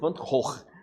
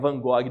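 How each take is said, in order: First: The name is pronounced the Dutch way. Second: The name is pronounced the Portuguese way. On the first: "na língua formal holandesa" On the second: "do portuguesado mesmo"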